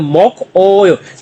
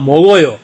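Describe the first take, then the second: First: Each syllable is said separately with a k sound. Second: The consonant links forward as a g sound. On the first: "लफ्ज तो अलग अलग जब पढ़ेंगे" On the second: "pronunciation rule के मुताबिक"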